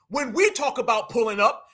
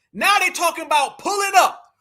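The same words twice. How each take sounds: First: "we" lifted and stressed, rising at the end; "we" pointed, set against "they're". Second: "Now" and "they" hit high and loud, pulling up falling away; "they" stressed, their talk set against ours. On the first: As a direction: put the weight on "we". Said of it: "now they're talking about pulling up". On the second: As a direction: lean hard on "Now they", scornful. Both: Shown as a demonstration.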